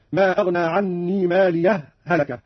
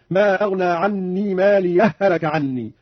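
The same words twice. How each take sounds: First: A short pause after مالية before هلك. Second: مالية هلك joined into one long doubled ha, slowly; merged ha. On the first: Teacher demonstrates the sakt pause between the two ha sounds. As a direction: stop briefly on the ha of مالية, then هلك. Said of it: "هذا هو السكت". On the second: Teacher demonstrates the merging, slow and drawn out. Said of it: "وهذا هو الإدغام". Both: Shown as a demonstration.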